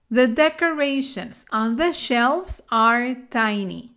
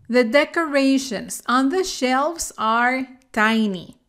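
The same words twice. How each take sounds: The two takes are said the same way.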